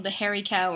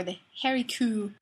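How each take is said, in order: First: Said in the usual way. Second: "coo" for cow, rhyming with moo; Scottish pronunciation. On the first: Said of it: "in Scotland". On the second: Shown as a demonstration. Naming Scotland's special cattle breed, "coo" said with a Scottish oo. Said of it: "in Scotland, there's a special breed".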